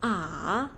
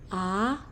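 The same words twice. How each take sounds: First: The pitch falls first, then rises. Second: The pitch rises like a question. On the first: "Nada tiga itu turun terus naik" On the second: "Nada dua tuh naik seperti orang bertanya"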